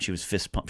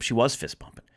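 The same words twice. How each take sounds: First: Said in the usual way. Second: Emphatic "was", as confirmation; stress on WAS. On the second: Real, not acted. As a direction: insist on it, leaning on "was". Corrects herself, stressing was.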